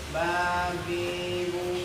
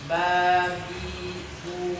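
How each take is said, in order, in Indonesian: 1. Suku katanya diucapkan dengan suara sengau. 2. Suku katanya diucapkan dengan jelas lewat mulut. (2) "keluar kan ke mulut"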